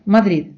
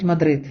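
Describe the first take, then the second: First: «Мадрид» з ледь чутним кінцевим д, майже видихнутим; проковтни кінцеве д у «Мадрид»; lazy final d. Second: «Мадрид» з чітким твердим кінцевим д; вимов кінцеве д у «Мадрид» повністю, як неправильно; wrong hard d. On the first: (кінцеве «д» у «Мадрид» майже не вимовляється) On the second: (тверде кінцеве «д» у «Мадрид») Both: Shown as a demonstration. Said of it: "Іспанці не кажуть".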